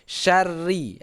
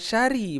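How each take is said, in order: First: The r is doubled and held with a trill. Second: The r is short and single, without a trill. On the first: The speaker calls it right. "tapi syarri, ada tasydid" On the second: The speaker calls it wrong. "Bukan syari bacaannya"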